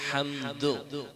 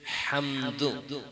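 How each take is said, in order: Both takes have the same delivery.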